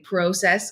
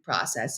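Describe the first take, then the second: First: The word is said with a Canadian pronunciation. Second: The word is said with an American pronunciation.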